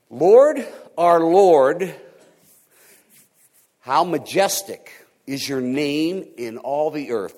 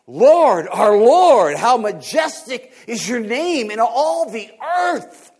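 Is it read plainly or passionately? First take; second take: plainly; passionately. First: It is read plainly, without much feeling. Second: It is read with fired-up passion.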